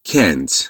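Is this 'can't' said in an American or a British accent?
American. It is said in an American accent. "در انگلیسی امریکایی میشه can't"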